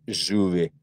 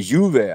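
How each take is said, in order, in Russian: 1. Слово начинается со звука zh. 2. Слово начинается со звука y. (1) "а Аргентина говорит «жуве»" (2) "а это э, «юве»"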